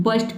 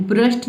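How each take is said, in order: First: बर्स्ट said as "bərst", short u then r; बर्स्ट with the r after the vowel; right pronunciation. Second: ब्रस्ट said as "brəst", r before the vowel; ब्रस्ट with the r pushed to the front; wrong pronunciation. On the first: (बर्स्ट, r स्वर के बाद) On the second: (ब्रस्ट, r स्वर से पहले) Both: Shown as a demonstration. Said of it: "ब्रस्ट नहीं पढ़ना है".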